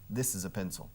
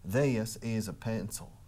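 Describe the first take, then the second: First: It is said in a neutral American accent. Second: It is said in a drawling Texas accent. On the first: "typical American, standard, neutral American accent" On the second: "Los tejanos alargan las palabras"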